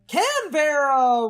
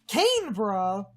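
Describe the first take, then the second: First: It is said with a Southern American pronunciation. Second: It is said with an Australian pronunciation. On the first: "Southern American English, Canberra would be a way to" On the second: "Australia, the dialect would normally say"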